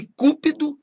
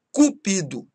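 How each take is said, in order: First: CÚPIDO stressed on the first syllable; tônica no CÚ. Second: CUPIDO stressed on the middle syllable PI; tônica no PI. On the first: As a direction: hit the CÚ of cúpido. (cúpido com tônica na primeira sílaba) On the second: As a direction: say Cupido with the weight on PI. (Cupido com tônica na penúltima sílaba) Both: Shown as a demonstration. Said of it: "mudam de sentido conforme a pronúncia".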